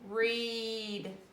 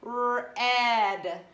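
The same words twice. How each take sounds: First: The vowel is a long 'ee' sound. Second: The vowel is a short 'eh' sound. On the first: The speaker calls it right. "it is with a long E sound because it says E" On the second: The speaker calls it wrong. "If I said the word was read, it would be eh"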